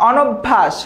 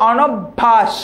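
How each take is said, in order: No difference in how they are said.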